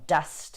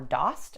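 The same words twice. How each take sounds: First: The vowel sounds like in 'dust'. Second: The vowel does not sound like in 'dust'. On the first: The speaker calls it right. "it's just like D U S T" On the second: The speaker calls it wrong. "they love to say dost or dost"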